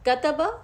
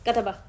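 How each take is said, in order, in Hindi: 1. हर छोटे स्वर को उसकी पूरी, बराबर लंबाई मिलती है। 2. अक्षर जल्दी-जल्दी एक साथ बोले गए हैं। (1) "एक हरकत का उसका पूरा हक देना है" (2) "अगर हम उसको जल्दी पढ़ लें"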